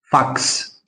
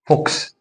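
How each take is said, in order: First: فاكس as "faks", the slow correction; corrected vowel in فاكس. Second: Rounded O in the middle of فوكس; فوكس as "foks", the mistaken reading; wrong vowel in فوكس. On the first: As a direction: say فاكس with an open "ah", like "faaks". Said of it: "اسمه فاكس". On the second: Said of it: "ما اسموش فوكس". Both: Shown as a demonstration.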